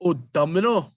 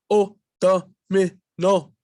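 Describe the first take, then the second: First: Said in the usual way. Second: O domino said slowly, chopped into spots: o, do, mino; choppy, broken up. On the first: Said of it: "And then all together". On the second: Shown as a demonstration. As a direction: stumble through O domino in broken pieces. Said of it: "broken up in spots".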